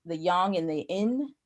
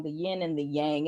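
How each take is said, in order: First: Yang with an open "ah", like "yahng"; attempted Chinese pronunciation. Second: Yang with a flat "a" as in "bang"; English pronunciation. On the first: Guessing how the Chinese say it, yang said "yahng". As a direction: say yang as "yahng" and yin nearly as "in". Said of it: "the Chinese say it is". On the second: Correcting herself on the English way, English pronunciation of yang. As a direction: say yang to rhyme with hang, yin with a y. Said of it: "the English way to pronounce it". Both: Shown as a demonstration.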